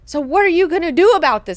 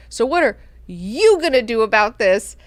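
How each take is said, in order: First: High, loud, quick mock demand; hammed-up impatient question. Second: Mock demand leaning heavily on "you"; stress on YOU. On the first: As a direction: push the problem onto them in one rush. Same demand, rushed then stressing YOU. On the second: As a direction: hit "you" hard after a small break. Same demand repeated, stress on YOU.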